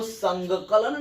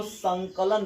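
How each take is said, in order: First: संगकलन with an extra g sound, sang-ka-lan; wrong reading. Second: संकलन said smoothly as san-ka-lan, no extra g; correct reading. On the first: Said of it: "इसको संगकलन नहीं पढ़ेंगे". (संगकलन गलत उच्चारण, ग के साथ) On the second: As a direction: say संकलन properly without the ग. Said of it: "इसको संकलन पढ़ेंगे". (संकलन सही उच्चारण, बिना ग के) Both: Shown as a demonstration.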